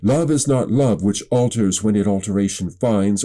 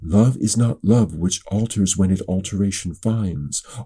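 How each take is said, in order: First: It is projected, as if addressing a large crowd. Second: It is quieter and intimate, as if addressing two people. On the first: It is a public address to many listeners. "if I were to do it in front of a crowd" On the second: It is a personal address to a couple. "if I were speaking more to two people"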